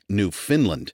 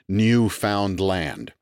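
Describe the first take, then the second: First: It is said with a Scandinavian-sounding pronunciation. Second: It is said as three separate words. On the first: "as if it were somehow a Scandinavian colony" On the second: "enunciated as if it were three distinct words"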